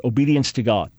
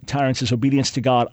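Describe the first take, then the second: First: Obedience to God set apart and weighted; preacher weighting obedience to God; stress on obedience to God. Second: Said in the usual way. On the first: Real, not acted. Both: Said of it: "I like to emphasize the second part".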